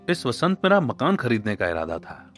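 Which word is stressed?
खरीदने. The stress is on खरीदने.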